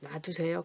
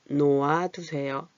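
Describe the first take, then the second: First: The verb is contracted to one syllable, 놔. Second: The verb is said in full, 놓아. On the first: "놔두세요 이렇게 되는 거예요" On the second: "놓아두세요 하니까 요게 줄어들어서"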